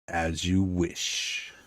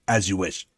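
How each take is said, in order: First: It is said slowly and smoothly. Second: It is said quickly and abruptly.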